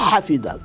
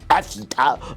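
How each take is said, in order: First: The name is said with an Arabic pronunciation. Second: The name is said with a French pronunciation.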